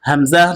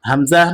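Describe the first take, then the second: No difference in how they are said.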